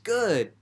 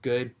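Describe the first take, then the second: First: The word sounds upbeat and enthusiastic. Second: The word sounds flat and neutral. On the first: Things are going great. "that can actually mean, you know, awesome, I'm doing great" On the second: Things are just okay. "it could mean, I'm doing all right"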